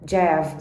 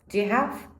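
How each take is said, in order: First: The three words blur into one short syllable. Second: Each of the three words is said separately. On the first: "eu tenho que falar Jeff" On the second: "Eu não falo Jeff, eu falo, do you have"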